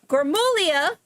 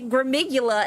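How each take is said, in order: First: The name ends with a 'glia' sound. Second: The name ends with a 'gula' sound. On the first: The speaker calls it right. "my friend Anthony" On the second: The speaker calls it wrong. "I keep hearing people say Gramigula, and I'm like, that's not how you say it"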